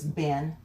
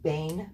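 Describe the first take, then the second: First: The vowel is a short 'eh' sound. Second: The vowel is a longer 'ay' sound. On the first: The speaker calls it wrong. "lots of times it gets pronounced as Ben" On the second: The speaker calls it right. "but it's pronounced Bane, really"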